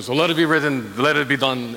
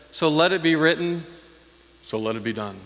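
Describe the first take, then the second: First: A light hint of Yul Brynner's accent, regal and low. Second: Lightly voiced royal decree; Pharaoh's decree. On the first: Preacher mimicking Yul Brynner's Pharaoh with a light accent. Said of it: "in his little accent". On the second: Preacher quoting Pharaoh's famous line, mildly stately. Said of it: "He said".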